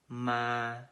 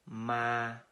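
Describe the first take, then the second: No difference in how they are said.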